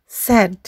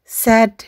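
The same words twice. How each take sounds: The two takes are said the same way.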